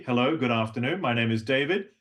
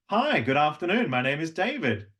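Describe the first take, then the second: First: Said in the usual way. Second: Higher greeting; level two greeting. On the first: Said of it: "Level three". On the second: Shown as a demonstration. Coach contrasting level two with level three, higher. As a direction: lift it up a notch. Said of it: "level two".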